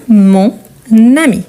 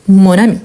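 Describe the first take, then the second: First: MON AMI slowly, AMI begun with a linking n; slow liaison demo. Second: Said in the usual way. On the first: Shown as a demonstration. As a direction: stretch it teacher-style as "mon... nami". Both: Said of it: "pour que je puisse faire la liaison".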